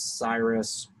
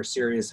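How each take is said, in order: First: Sirius said as SY-russ, long "eye" first; variant pronunciation. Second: Sirius said as SEER-ee-us, three syllables; alternative pronunciation. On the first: Navigator unsure of a star's name, Sirius said SY-russ. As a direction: say Sirius in two syllables, like "SIGH-russ". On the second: Navigator offering another reading, Sirius said SIRR-ee-us. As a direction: say Sirius with a short first vowel, "SIRR-ee-us". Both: Real, not acted. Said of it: "however you pronounce it".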